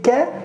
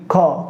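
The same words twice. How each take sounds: First: The consonant sounds light and thin. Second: The consonant sounds heavy and deep. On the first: The speaker calls it wrong. "If you say ka, you will make it light" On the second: The speaker calls it right. "You have to say ka"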